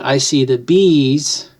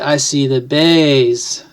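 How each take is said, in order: First: The last word has an 'ee' vowel. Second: The last word has an 'ay' vowel. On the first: "instead of saying I see the bees" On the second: "you would say I see the bays"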